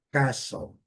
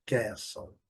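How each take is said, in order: First: Castle as KAH-sol, open A, silent T; British castle. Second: Castle as KEH-sol, front A, silent T; American castle. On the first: Teacher models the better pronunciation, open-A demo. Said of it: "a melhor pronúncia é". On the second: Teacher models the other transcription, front-A demo. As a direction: say castle with the A of cat. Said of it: "E aqui". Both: Shown as a demonstration.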